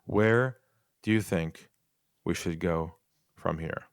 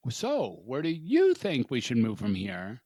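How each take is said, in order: First: Calm and open, "you" left light, pauses between phrases; slow, paused, no push on you. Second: "you" leaned on in "where do you think", rising at the end; stress on you. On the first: Coach repeats the question to the host, unstressed and paused. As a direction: ask it gently with space, not pushing. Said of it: "And I'll say it again". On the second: Host shows the pushy version, stressing "you". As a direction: press the word "you" as if expecting an answer. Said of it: "lack of emphasis on the word you". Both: Shown as a demonstration.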